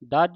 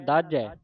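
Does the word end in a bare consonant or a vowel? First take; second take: consonant; vowel. First: The word ends abruptly on a bare consonant. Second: The word ends with an added 'ai' vowel. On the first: The speaker calls it wrong. "ਦੱਜ ਹੀ ਨਹੀਂ ਕਹਿ ਦੇਣਾ" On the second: The speaker calls it right. "ਝੱਜੇ ਦੇ ਦਲਾਵਾਂ ਲੱਗੀਆਂ"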